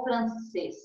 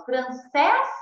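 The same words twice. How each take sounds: First: Francês with a closed final E, falling. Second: Francês with an open final E, rising. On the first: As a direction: say francês with a tight "ê" at the end. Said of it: "é um acento mais fechado". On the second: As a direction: say francês with a wide-open "é" at the end. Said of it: "o acento agudo é um acento aberto". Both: Shown as a demonstration.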